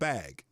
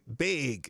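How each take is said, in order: First: The word is said in a general accent. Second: The word is said in a Minnesota accent. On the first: This is how people elsewhere say it. "instead of bag" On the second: This is how people in Minnesota say it. "in Minnesota when people say bag"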